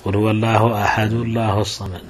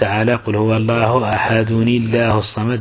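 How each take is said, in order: First: The n after ahad is dropped entirely. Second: The n after ahad is kept and linked. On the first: This is a rare irregular reading. "والقراءة الشاذة قراءة عبد الوارث بن سعيد" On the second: This is the well-known standard reading. "أي القراءة المشهورة"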